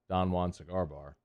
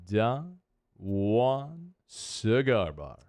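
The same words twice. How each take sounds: First: It is said flatly, with little pitch movement. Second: It is said with lively, exaggerated pitch movement. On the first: "you could just say" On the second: "I put a lot of inflection into it"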